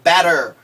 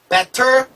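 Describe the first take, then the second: First: The middle consonant is a soft d-like sound. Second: The middle consonant is a clear t sound. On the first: The speaker calls it right. "그래서 더가 되죠" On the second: The speaker calls it wrong. "better가 아니라"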